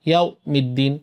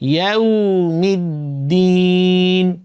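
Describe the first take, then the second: First: The w sound is cut off abruptly. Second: The w sound keeps sounding without a break. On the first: The speaker calls it wrong. "ইয়াউ মিদ্দিন না" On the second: The speaker calls it right. "আওয়াজ চালু থাকবে"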